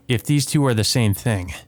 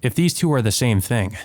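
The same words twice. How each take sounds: The two takes are said the same way.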